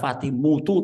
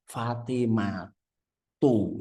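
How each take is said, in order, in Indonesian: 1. Vokal 'u' ada sebelum 'tu' terakhir. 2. Vokal 'a' ada sebelum 'tu' terakhir. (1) "tidak ada Fatimutu" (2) "selalu dibaca fathah Fatimatu"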